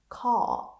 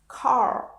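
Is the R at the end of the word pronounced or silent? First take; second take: silent; pronounced. First: The final R sound is silent. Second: The final R sound is pronounced. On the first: "But in British English, it's not" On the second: "in American English, R at the end of words is pronounced"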